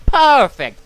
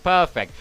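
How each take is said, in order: First: A loud, pleased sales pitch; mock delighted seller. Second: Said in the usual way. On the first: Game store voice loudly thrilled with the sale. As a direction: bark it out like a happy shopkeeper.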